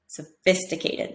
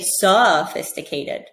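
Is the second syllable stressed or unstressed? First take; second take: stressed; unstressed. First: The second syllable is stressed. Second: The second syllable is unstressed. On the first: The speaker calls it right. "So the fit is the stress" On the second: The speaker calls it wrong. "I don't say sophisticated"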